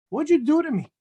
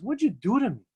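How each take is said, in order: First: Higher and louder, accusing; indignant outburst. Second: Said in the usual way. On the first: Retold or imitated. The man accusing the Arizal, higher and louder. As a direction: throw the question back hard.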